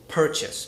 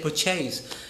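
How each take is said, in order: First: The stress is on the first syllable. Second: The stress is on the second syllable. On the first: The speaker calls it right. "the stress is on the first syllable" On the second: The speaker calls it wrong. "I don't say purchase"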